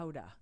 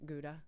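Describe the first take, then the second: First: The word begins with a breathy H sound. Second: The word begins with a hard G sound.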